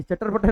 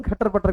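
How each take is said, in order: First: चटर पटर with a "ch" opening the first word; mistaken hoof sound. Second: खटर पटर with a breathy "kh" opening; corrected hoof sound. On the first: Teacher corrects his horse noise, चटर पटर with a "ch". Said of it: "ये चटर पटर नहीं". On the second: Teacher gives the real horse noise, खटर पटर with a "kh". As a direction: say खटर पटर, starting on an aspirated "kh". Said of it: "लेकिन खटर पटर की आवाज". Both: Shown as a demonstration.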